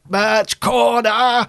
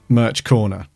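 First: It is said forcefully, like a robotic Dalek. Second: It is said in a plain, ordinary voice. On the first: The speaker calls it right. "you have to, like, put everything into it. So you have to be like" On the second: The speaker calls it wrong. "if you just say, like, Merch Corner, it will just sound like that"

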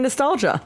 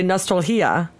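First: The g is pronounced as a j sound. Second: The g is pronounced as a breathy h sound. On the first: This is the English pronunciation. "an English speaking American would say" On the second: This is the Spanish pronunciation. "if you were to pronounce it phonetically"

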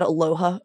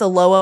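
First: The word is said with an h sound. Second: The word is said without an h sound. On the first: The speaker calls it wrong. "not aloha" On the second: The speaker calls it right. "aloha is pronounced aloha, no H sound"

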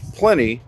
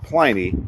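First: The first syllable rhymes with 'many'. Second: The first syllable does not rhyme with 'many'. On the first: The speaker calls it right. "it's Pliny, Pliny rhymes with many" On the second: The speaker calls it wrong. "not Pliny"

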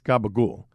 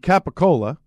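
First: It is said the Italian way. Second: It is said the American way.

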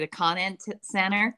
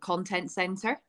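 First: It is said in an American accent. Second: It is said in a non-American accent.

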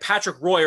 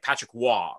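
First: Roy is said like 'roy', ending in 'oy'. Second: Roy is said like 'rwah', ending in 'wah'. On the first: The speaker calls it wrong. "But here they'll be like" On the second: The speaker calls it right. "basically you pronounce it like W-A"

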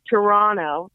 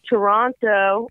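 First: The T sound in the word is dropped. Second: The T sound in the word is clearly pronounced.

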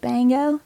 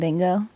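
First: The vowel is drawn out toward an a sound. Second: The vowel sounds like a plain short i. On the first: "a really pretty thick southern accent was like" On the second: "she was saying bingo"

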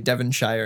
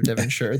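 First: The ending is said as a full 'shire'. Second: The ending is said as a reduced 'sher'.

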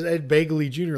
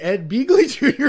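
First: The first syllable rhymes with 'bay'. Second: The first syllable rhymes with 'bee'. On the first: "like Bagel" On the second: "it sounds like Beagle"

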